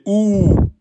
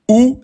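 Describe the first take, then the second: First: The vowel is held for two beats. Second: The vowel is held for one short beat. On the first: The speaker calls it right. "vous le mettez en deux temps" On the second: The speaker calls it wrong. "c'est faux, vous l'avez prononcé en un temps"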